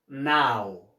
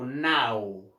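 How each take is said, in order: Both takes have the same delivery.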